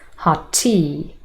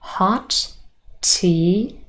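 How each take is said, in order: First: The words are linked with a single t. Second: Both t sounds are said separately.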